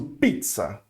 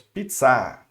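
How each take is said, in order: First: Pizza with stress on pi; Portuguese stress. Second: Pizza stressed on the last syllable, a strong; French final stress. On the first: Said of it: "não pronuncio pizza com o pi forte". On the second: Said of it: "Eu vou pronunciar com a forte". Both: Shown as a demonstration.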